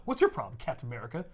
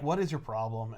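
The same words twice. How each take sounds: First: Fury, snapping back. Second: Low, softer deadpan challenge; Cap, unimpressed. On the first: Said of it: "And Fury's like". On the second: Cap looking at a panicking boss, low and unimpressed. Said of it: "Cap is just looking at him like". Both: Acted.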